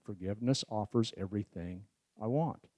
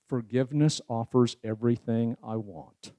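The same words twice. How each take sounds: First: "Forgiveness offers everything I want." spoken much softer and lower, evenly counted; quiet ten count. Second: Said in the usual way. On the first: Shown as a demonstration. Speaker repeating the verse as a soft ten count. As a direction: hush it and let each beat land. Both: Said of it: "Ten count".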